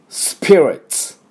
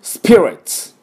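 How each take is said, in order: First: スピリッツ slow, high, each sound separate; slow model spirits. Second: スピリッツ high and loud; model spirits. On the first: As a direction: lay out スピリッツ slowly to copy. (ゆっくり区切ったスピリッツ) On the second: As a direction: announce スピリッツ brightly for students. (元気よくスピリッツ) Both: Shown as a demonstration. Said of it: "私の後について発音いきましょう".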